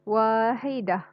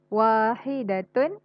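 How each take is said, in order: First: The word ends softly with an 'h' sound. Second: The word ends with a full 'tun' syllable. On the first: The reader stops on this word. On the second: The word is read on without stopping.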